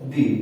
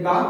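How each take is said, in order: First: The word ends with a long 'ee' vowel. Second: The word ends with a short 'uh' vowel. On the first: Used before a vowel sound. "दूसरा दी" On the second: Used before a consonant sound. "एक दा"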